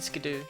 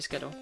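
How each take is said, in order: First: The name ends in a long oo sound. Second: The name ends in a short o sound. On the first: It would need two o's in the spelling. "I'm not saying Skidoo" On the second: It follows the spelling with one o. "That one's always gonna be Skiddo"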